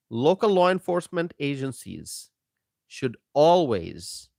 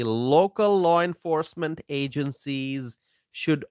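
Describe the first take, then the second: First: Whispered emphasis on "local law enforcement agencies". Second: Said in the usual way. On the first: Real, not acted. Host whispers to his stream audience for emphasis. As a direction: drop to a pointed whisper to drive it home. Repeats line, second time whispered.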